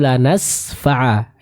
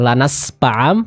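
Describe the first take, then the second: First: The middle consonant sounds like f. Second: The middle consonant sounds like p. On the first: The speaker calls it right. "huruf fa sempurnakan pengucapannya" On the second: The speaker calls it wrong. "terbaca dengan pa ya. Jadi dengan huruf p"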